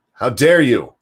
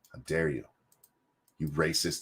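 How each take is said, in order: First: Louder, hammed-up indignant cry; mock shocked outburst; mock outraged. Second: Much softer, lower mock-shocked murmur; quiet mock indignation; mock hushed. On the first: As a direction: play the offended scold to the hilt. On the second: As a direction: drop to a scandalised hush. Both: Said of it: "they'd be like".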